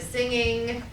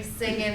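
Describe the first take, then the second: First: Said in the usual way. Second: "singing" as "singin'"; dropped final G. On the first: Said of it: "instead of singing". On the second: Shown as a demonstration. Teacher showing omitted sounds, "singing" without final G. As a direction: end "singing" on a plain N. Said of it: "the omission of sounds".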